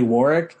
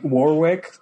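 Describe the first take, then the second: First: The name is said with a British pronunciation. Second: The name is said with an American pronunciation. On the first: The speaker calls it right. "it's actually Warwick in like in the UK" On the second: The speaker calls it wrong. "like Warwick that Americans say"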